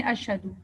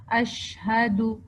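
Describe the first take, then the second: First: اشہدو with the ش cut short, no spreading of air; wrong, clipped sh. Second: اشہدو with the ش held long and spread, air filling the mouth; spread sh sound. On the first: Teacher demonstrating the wrong way to read اشہدو, clipped sh. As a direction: rush the ش in اشہدو like a careless reader. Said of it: "اگر ہم اس کو غلط پڑھتے ہیں". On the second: Teacher modelling the correct tafashshi in اشہدو for students, slow careful demo. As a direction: stretch the ش in اشہدو, slowly, breath spreading. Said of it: "یہ جو ش کی ساؤنڈ ہے نا". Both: Shown as a demonstration.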